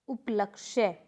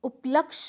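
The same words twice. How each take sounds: First: उपलक्ष्य ending in "kshya"; correct pronunciation. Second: उपलक्ष ending on "ksh"; incorrect pronunciation. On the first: Teacher correcting the class, उपलक्ष्य with final ya. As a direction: say उपलक्ष्य as up-lak-shye. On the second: Teacher showing a mistake, उपलक्ष without final ya. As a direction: say उपलक्ष as up-laksh. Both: Shown as a demonstration. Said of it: "ये वाला भी आ चुका है".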